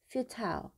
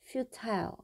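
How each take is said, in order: First: The last syllable rhymes with 'tile'. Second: The same.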